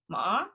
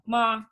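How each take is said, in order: First: The pitch rises at the end. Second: The pitch stays level and flat. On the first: It means hemp. "go up at the end, like a question" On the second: It means mother. "They're like a monotone"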